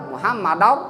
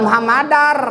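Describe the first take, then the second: First: "Muhammadar" ending rounded like "-dau"; no trill on the end of "Muhammadar"; thick R. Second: "Muhammadar" with a ringing final R; trilled ending. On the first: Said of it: "Bibirnya taikan ke atas". ("Muhammadar" dengan ro tebal) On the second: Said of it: "Buah kuan Muhammadar". ("Muhammadar" dengan r akhir bergetar) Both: Shown as a demonstration.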